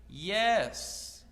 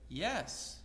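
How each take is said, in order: First: It is said slowly, loudly and very clearly. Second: It is said at a normal pace and volume.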